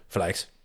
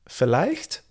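First: It sounds confident, like a firm statement. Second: It sounds unsure, like a hesitant question.

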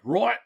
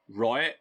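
First: It is said in a Scottish accent. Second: It is said in a nasal pop-punk singer voice. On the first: "it's basically right. The same vowel sounds" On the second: "in Tom DeLongean is like right"

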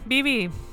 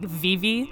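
First: The name begins with a soft B-like sound. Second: The name begins with a clear V sound. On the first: "I'm a little bit Spanishized or Spaniolized" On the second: "in the United States, I feel like we would pronounce the V"

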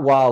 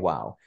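First: It sounds alarmed and shocked. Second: It sounds delighted and appreciative.

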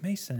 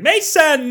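First: It is said mildly, with low intensity. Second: It is said strongly, with high intensity.

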